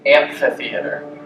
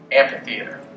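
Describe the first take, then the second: First: The middle consonant is said as an f sound. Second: The middle consonant is said as a p sound. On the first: "instead of" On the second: "we say"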